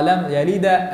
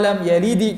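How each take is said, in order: First: An 'a' vowel is added after the final d. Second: An 'i' vowel is added after the final d. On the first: "Ini jadi fathah" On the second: "Kita turunkan rahang kita. Ini salah"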